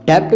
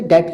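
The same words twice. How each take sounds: First: "डेब्ट" with the B sounded before T; wrong pronunciation. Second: "डेट" with no B before the T; correct pronunciation. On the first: Teacher showing how not to say it, mispronounced. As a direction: pronounce the B in "डेब्ट". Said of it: "नहीं कहते". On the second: Teacher showing how it is said, correctly pronounced. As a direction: say "डेट", B silent. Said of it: "कहते हैं". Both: Shown as a demonstration.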